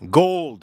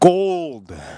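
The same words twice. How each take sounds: First: It is said at normal speed. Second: It is said very slowly.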